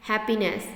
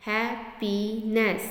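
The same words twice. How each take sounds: First: Said in the usual way. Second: happiness in three slow beats, "hap - pee - ness"; split into syllables. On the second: Shown as a demonstration. (Happiness को तीन हिस्सों में तोड़कर, धीरे) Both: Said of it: "three syllable".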